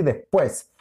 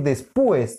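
First: Said in the usual way. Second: Después mispronounced des-PÚ-es; wrong stress on U. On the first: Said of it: "quiero decir después". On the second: Shown as a demonstration. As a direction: stress the u of después as its own syllable. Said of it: "Y yo no quiero decir después". (después mal acentuado en la u: despúes)

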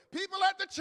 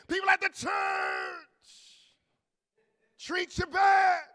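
First: Loud, high church cry; preached shout. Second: Repeated louder shout. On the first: Preacher calling out the church, shouting. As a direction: call it out to the congregation. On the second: Preacher repeating it to the church, louder. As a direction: say it again with more force. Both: Real, not acted. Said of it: "can I say it again?".

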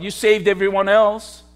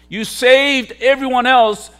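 First: An understated sneer, voiced for the crowd; mild mocking taunt. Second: Louder mocking taunt. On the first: Preacher voicing the crowd taunting Jesus on the cross, mild mockery. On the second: Preacher voicing the crowd jeering at Jesus, raised mocking shout. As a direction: jeer pushed higher and louder.

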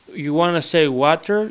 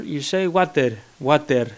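First: Water with every letter said; Greek-style water. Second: Water in a Greek accent, said watther with a clear R. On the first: Showing how a Greek speaker says water. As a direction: sound out each letter of water. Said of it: "in Greek, you pronounce every letter". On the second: Greek accent, mocking his own language's water. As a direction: say water as a Greek, every letter sounded. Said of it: "you pronounce every letter". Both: Shown as a demonstration.

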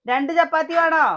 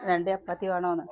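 First: Calling out. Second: Said in the usual way. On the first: Real, not acted. Asking child across room.

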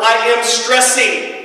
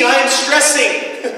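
First: I am stressing, slow and high with the weight on I; "I am stressing" said slowly, falling off at the end. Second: "am" stressed, slow and falling, in "I am stressing"; slow "I am stressing", weight on "am". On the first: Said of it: "it's a verb". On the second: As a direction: press down on "am" in "I am stressing". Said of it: "I'm not stressed". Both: Shown as a demonstration.

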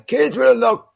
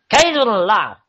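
First: High-pitched put-on voice; first stab at a silly voice; put-on game voice. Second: Put-on high, loud half-Russian accent; put-on voice slipping into Russian. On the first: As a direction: read it out in a high character voice. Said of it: "that's not the wrong voice". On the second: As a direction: read it in a rough attempt at Russian. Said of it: "Is that, like, a Russian accent".

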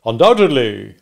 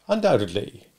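First: Loud, assured one-word answer; emphatic witness reply. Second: Restrained repeat of the answer; cross-examiner's echo. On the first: Wopsle answers the stranger. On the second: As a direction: hand the word back coolly. Stranger echoes Wopsle's answer. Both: Acted.

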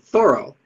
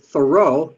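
First: Thoreau with the stress on the first syllable; his own pronunciation. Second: Thoreau with the stress on the second syllable; usual pronunciation. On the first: Lecturer showing how the writer himself said it, Thoreau stressed on the first syllable. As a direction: say Thoreau as THOR-oh, front syllable punched. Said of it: "but he said". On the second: Lecturer showing how we usually say the name, Thoreau stressed on the last syllable. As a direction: say Thoreau as thuh-ROH, weight on the end. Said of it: "we usually pronounce it". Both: Shown as a demonstration.

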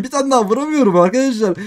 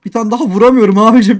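First: Said in the usual way. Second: Loud, exasperated complaint; real frustration, much louder; frustrated. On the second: Real, not acted. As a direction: vent at missing the hit. Frustrated gamer can't land hits.

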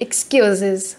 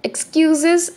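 First: Low mocking fall on "excuses"; taunting. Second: Mocking rise on "Excuses"; "Excuses" sung up, teasing; taunting. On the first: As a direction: drop "excuses" down, sneering. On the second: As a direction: rival mocking the late team, taunting rise. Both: A narrator's reading. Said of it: "Melanie taunted".

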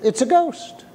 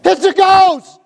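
First: Mock curious. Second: High, loud panicked shout; terrified cry. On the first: Pastor showing how the disciples did not speak, curious and unafraid. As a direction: say it like a casual observation, no alarm. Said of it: "in curiosity". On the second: Pretend. Pastor acting the disciples crying out in fear, panicked shout. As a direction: scream it out in sudden fear. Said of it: "They cried out in fear".

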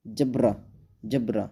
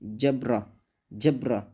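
No difference in how they are said.

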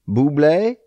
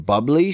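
First: "Bubbly" said like "boo-BLAY"; mock French pronunciation. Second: Said in the usual way. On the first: Shown as a demonstration. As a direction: end "Bubbly" on a rising "-ay". Repeats brand name as [name].

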